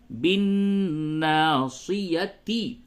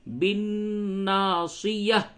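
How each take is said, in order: First: The word ends with a clear ti sound. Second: The word ends with a soft h sound. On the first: The reading continues without stopping. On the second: The reader stops at this word.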